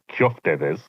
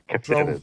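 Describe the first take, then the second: First: The first syllable is said as 'kyof'. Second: The first syllable is said as plain 'kef'. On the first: This is how it is said in Cyprus. "Where I'm from in Cyprus" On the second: This is how it is said in Greece. "That is the pronunciation that you'd most likely get from Greece"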